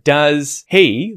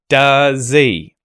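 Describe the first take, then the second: First: Both words are said fully with the H. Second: The H is dropped but the vowel is full. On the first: "instead of does he" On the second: "removing that H"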